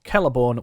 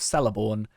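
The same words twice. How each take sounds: First: The first part is not said like 'Cella'. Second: The first part is said like 'Cella'. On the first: This is how the name is actually said. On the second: This is how the speaker used to think it was said.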